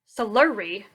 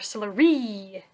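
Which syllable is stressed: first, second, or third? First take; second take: second; third. First: The stress is on the second syllable. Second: The stress is on the third syllable.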